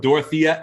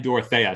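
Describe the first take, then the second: First: Dorothea as "dor-uh-THEE-uh"; long ee in the middle of Dorothea, "THEE-uh"; first pronunciation. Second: Dorothea as "dor-uh-THAY-uh"; second pronunciation. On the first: Co-host reporting both stream readings, Dorothea as "dor-uh-THEE-uh". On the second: Co-host reporting both stream readings, Dorothea as "dor-uh-THAY-uh". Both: Shown as a demonstration. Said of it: "they said both Dorothea and Dorothea".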